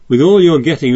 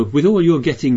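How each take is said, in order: First: "all" pushed higher and louder with a laugh; stress on all. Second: Said in the usual way. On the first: Shown as a demonstration. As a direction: lean hard on "all" in "With all your getting". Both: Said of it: "What on earth does that mean?".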